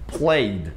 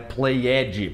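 First: The ending is said without an extra syllable. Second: The ending is said as an extra syllable. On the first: The speaker calls it right. "aquele E ele não é pronunciado" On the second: The speaker calls it wrong. "não é played"

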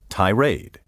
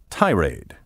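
First: The stress is on the second syllable. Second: The stress is on the first syllable.

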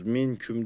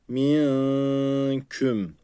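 First: The n is pronounced fully before the k. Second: The n is hidden with a nasal hum. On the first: The speaker calls it wrong. "Minküm değil" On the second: The speaker calls it right. "ihva yapmamız gerekiyor"

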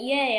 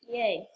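First: The word is said in a happy tone. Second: The word is said in a sarcastic tone. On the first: The speaker is genuinely pleased. "I'm actually happy" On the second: The speaker does not seem to mean it. "It sounds so sarcastic"

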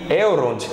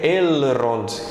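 First: The R is not trilled and the L is soft. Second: The R is trilled and the L is clear. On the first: The speaker calls it wrong. "embora eu fale aqui Elrond" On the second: The speaker calls it right. "vocês já sabem como é o correto, que é Elrond"

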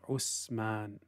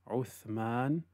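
First: The middle consonant is a hissing 's' sound. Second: The middle consonant is a soft 'th' sound. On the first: The speaker calls it wrong. "they say Usman, because they didn't put the tip of the tongue slightly out" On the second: The speaker calls it right. "instead of saying Uthman"

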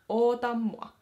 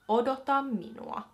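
First: The phrase is said in a shortened form. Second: The phrase is said in its full form. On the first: This is the everyday spoken form. "as a full sentence, be oota mua" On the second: This is the standard written-language form. "That would be how you say wait for me in Kirjakieli"

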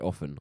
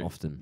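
First: The word is said without a t sound. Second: The word is said with a t sound. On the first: This is how it is said in conversation. "if I said it in conversation, I'd say often" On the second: This is how it is said when reading. "I'm more like to read it with the T"

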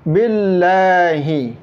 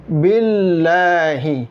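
The two takes are said the same way.

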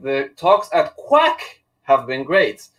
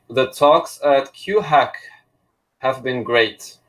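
First: The name is said as one syllable, quack. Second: The name is said as two syllables, cue-hack. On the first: The speaker calls it right. "the correct pronunciation is quack" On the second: The speaker calls it wrong. "it's completely inappropriate and wrong"

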